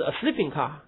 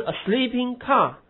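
First: Sleeping stressed, car left light. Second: Car stressed high and loud, falling; wrong stress on car. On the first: Teacher giving the right reading, stress on sleeping. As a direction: lean on sleeping, car unstressed. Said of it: "是". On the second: Teacher showing the wrong reading, stress on car. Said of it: "不是". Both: Shown as a demonstration.

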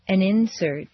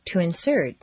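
First: First syllable of "insert" stressed; "insert" as a noun, IN-sert. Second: Second syllable of "insert" stressed; "insert" as a verb, in-SERT. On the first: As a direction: hit IN in "insert". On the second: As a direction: hit SERT in "insert", then fall. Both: Shown as a demonstration. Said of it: "regular transitions of nouns and verbs".

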